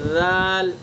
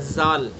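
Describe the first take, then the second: First: The first consonant is soft without hissing. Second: The first consonant is hissing like a z. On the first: The speaker calls it right. "अदा करेंगे बिल्कुल नरमी से" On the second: The speaker calls it wrong. "सीटी की आवाज़ निकल गई, तो फिर जा बन जाएगा"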